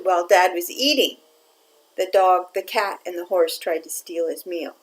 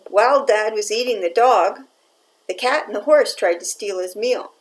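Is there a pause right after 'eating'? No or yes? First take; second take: yes; no. First: There is a pause after 'eating'. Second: There is no pause after 'eating'.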